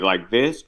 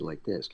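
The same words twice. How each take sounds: First: It is said loudly, projected to carry far. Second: It is said softly, close and intimate. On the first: It must reach the back of a theater. "you're reading a play and you're gonna have to say it" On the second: A nearby microphone picks it up. "the microphone's right there and you have to say it"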